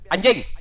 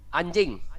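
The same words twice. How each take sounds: First: It is said in an angry, insulting tone. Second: It is said in a plain, neutral tone.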